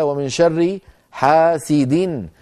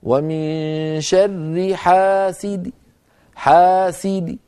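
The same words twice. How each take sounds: First: Slow recitation of "حاسد" with the full tanween "hasidin"; continuous recitation. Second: Very slow recitation of "حاسد" with the tanween dropped and the kasra on the dal a faint trace; stopping with rawm. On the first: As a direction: recite "حاسد" in connected reading with the nunation voiced. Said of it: "قوله تعالى". (قراءة "حاسد" بالتنوين كاملًا في الوصل) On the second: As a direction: stop on "حاسد" with a weak, reduced i. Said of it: "لو وقفت عليه بالروم". (الوقف بالروم على "حاسد" بكسرة ضعيفة بلا تنوين) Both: Shown as a demonstration.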